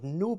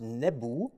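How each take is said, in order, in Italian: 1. È una sillaba con una vocale oo lunga. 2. Sono due sillabe, ne e bu. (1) "our pronunciation of the word noob is more or less wrong" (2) "in ancient Egyptian it was pronounced nebu"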